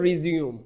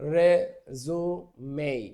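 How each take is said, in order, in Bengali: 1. শব্দটি দুই শব্দাংশে উচ্চারিত হয়। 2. শব্দটি তিন শব্দাংশে উচ্চারিত হয়। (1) "যখন উচ্চারণটা রিজিউম হবে তখন এটা ভার্ব হয়ে যাবে" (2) "এটার উচ্চারণ হবে রেজুমেই"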